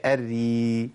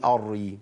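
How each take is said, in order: First: الري held, r thin, like "er-ri"; correct light r. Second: الري with a thick first r, like "ar-ri"; wrong heavy r. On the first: Teacher correcting the mistake, thin long r in الري. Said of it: "هي". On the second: Teacher showing what won't do, heavy r in الري. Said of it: "ما ينفعش أقول". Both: Shown as a demonstration.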